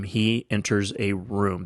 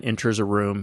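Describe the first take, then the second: First: "he enters a room" slow and weighty, word by word; emphatic repeat. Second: Said in the usual way. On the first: Real, not acted. Storyteller stressing a star's entrance to listeners, slow and emphatic. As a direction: draw out "he enters a room" with deliberate pauses.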